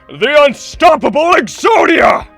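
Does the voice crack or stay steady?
steady. The impression voice stays steady and controlled.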